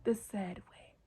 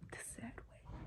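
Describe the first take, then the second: First: Said in the usual way. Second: Whispered "The sad way", breathy and hushed. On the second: Shown as a demonstration. To viewers ending the story, a whispered echo.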